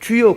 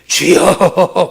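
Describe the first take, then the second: First: It is said plainly and simply. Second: It is said in an exaggerated, pious way.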